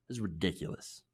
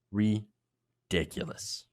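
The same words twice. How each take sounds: First: Said in the usual way. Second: Exasperated drawl. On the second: Real, not acted. Disgusted repeat.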